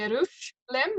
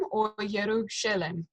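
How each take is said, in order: First: Yerushalem tried with a break after Yerush; trying out pronunciation. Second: Yerushalem sounded out with a vocal shva; alternative pronunciation. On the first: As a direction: sound out Yerushalem, testing whether the shva is silent. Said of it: "if that's a vocal shua or not". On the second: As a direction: offer Yerushalem with an extra vowel after the sh. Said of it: "vocal shua or not". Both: Shown as a demonstration.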